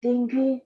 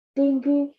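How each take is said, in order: Both takes have the same delivery.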